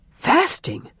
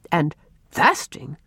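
First: High, startled echo of the word; shocked exclamation; astonished father. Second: Slow, measured, questioning echo; puzzled doctor. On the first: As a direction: repeat it in disbelief, pitched way up. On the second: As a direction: weigh the word with mild disbelief. Doctor echoes the confession. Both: A narrator's reading.

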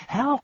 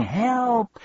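First: Very high clipped cry rising; a second, quicker cry; shouting for help. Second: Very high, louder cry with falling end; shouting for help. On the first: Bee pinned under Milo, high rising cry. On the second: Bee pinned under Milo, high cry for help. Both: Acted. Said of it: "lay there shouting".

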